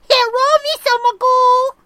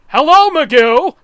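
First: It is said in a mock Asian accent. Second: It is said in a plain American voice.

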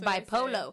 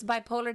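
First: The word ends with an 'lo' sound. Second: The word ends with a clear 'lar' sound. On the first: The speaker calls it wrong. "he knew he was saying it incorrectly" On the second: The speaker calls it right. "it's bipolar"

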